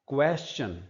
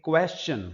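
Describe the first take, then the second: The two takes are said the same way.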